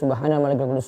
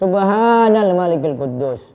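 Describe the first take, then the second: First: It is said softly. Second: It is said loudly.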